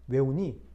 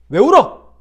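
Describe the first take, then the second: First: It sounds soft and gentle. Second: It sounds scolding and harsh.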